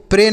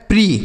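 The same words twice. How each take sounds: First: PRE misread as "प्रे", rhyming with English "pray"; "प्रे" ending in ay instead of ee; wrong reading. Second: PRE read as "प्री", rhyming with English "free"; "प्री" ending in ee, not ay; correct reading. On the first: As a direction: say "प्रे" with an ay vowel, as the reading to avoid. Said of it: "प्रे नहीं पढ़ेंगे". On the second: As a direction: say "प्री" with a long ee vowel. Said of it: "पीआरई को प्री पढ़ेंगे". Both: Shown as a demonstration.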